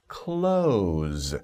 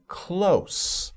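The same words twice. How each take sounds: First: It is pronounced as the word meaning shut. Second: It is pronounced as the word meaning nearby. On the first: Something is being shut. "you could also pronounce this word as close, which is a different meaning" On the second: Something is not far away. "it's close. That means nearby, next to, not far from"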